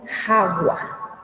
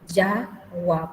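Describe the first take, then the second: First: The word begins with a harsh throaty H sound. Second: The word begins with a soft Y sound. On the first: It is read as if it were Spanish. The speaker calls it wrong. "si vamos a leer en castellano va a ser jagua" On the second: It is read the Guarani way. The speaker calls it right. "en guaraní es yagua, porque la J se pronuncia como Y"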